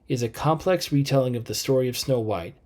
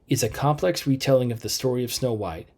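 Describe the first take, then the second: Both takes have the same delivery.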